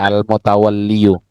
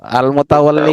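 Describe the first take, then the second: First: The word ends with an extra -yu syllable. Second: The word ends on -li without an extra syllable. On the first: It is a name showing origin or affiliation. The speaker calls it right. "seharusnya dibaca" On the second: It means a person who manages something. The speaker calls it wrong. "Kalau Al-Mutawalli yang tanpa ya nisbat itu artinya ya orang yang mengurus"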